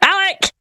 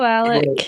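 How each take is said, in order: First: The name is shouted loudly. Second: The name is said at normal volume.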